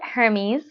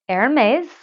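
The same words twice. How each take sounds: First: The name is said with an English-style pronunciation. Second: The name is said with a French-style pronunciation. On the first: The speaker calls it wrong. "I call it Hermes" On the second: The speaker calls it right. "you're supposed to say Hermes"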